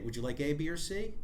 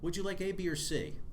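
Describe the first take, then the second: First: The voice rises at the end on C. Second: The voice falls at the end on C. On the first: It asks whether any of the options is wanted. "That can suddenly come across as a yes no question" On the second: It offers a choice among three options. "That might communicate uh, a, a list of three choices"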